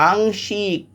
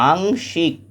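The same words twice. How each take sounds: The two takes are said the same way.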